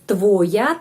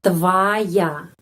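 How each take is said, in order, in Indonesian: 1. Vokal pertama terdengar seperti o. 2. Vokal pertama terdengar seperti a. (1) "kita menulis твоя" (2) "tapi pengucapannya твоя"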